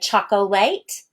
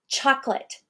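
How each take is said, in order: First: The word is said with three syllables. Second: The word is said with two syllables. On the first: The speaker calls it wrong. "I don't say chocolate" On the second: The speaker calls it right. "I completely take out the O"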